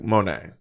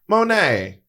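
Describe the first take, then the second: First: The voice is pitched lower and deeper. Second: The voice is pitched higher and lighter. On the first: This is how the voice sounds now. "and now it's like" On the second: This is how the voice sounded years ago. "It was just a bit higher"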